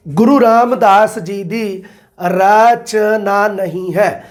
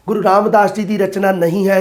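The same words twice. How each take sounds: First: Reading the question slowly so students catch ਨਹੀਂ; slow emphatic reading. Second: Said in the usual way. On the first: Shown as a demonstration. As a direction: dwell on ਰਚਨਾ ਨਹੀਂ ਹੈ to stress the NOT.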